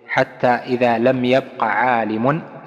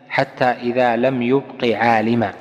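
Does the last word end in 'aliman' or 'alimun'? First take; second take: alimun; aliman. First: The verb is yabqa; the noun ends in -un. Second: The verb is yubqi; the noun ends in -an. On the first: No scholar remains. "عالم فاعل، هذه هي المشهورة" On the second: God leaves no scholar remaining. "يعني الله جل وعلا يبقي عالما"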